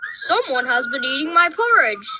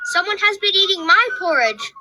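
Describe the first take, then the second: First: It is said in a big, deep voice. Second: It is said in a tiny, small voice. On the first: "in his great big voice" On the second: "cried the wee small baby bear in his wee small voice"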